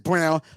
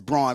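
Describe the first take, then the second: First: The name rhymes with the word 'town'. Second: The name does not rhyme with 'town'. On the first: This is how the player himself says it. The speaker calls it wrong. "he pronounces it as Brown" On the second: This follows how the name is spelled. The speaker calls it right. "I pronounce it as Braun because that's how it's spelled"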